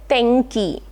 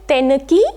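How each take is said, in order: First: The middle consonant is a soft nasal sound. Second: The middle consonant is a clear n sound. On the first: The speaker calls it right. "we say tenki. So n here is nasal and not the n sound" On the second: The speaker calls it wrong. "We never say tenki"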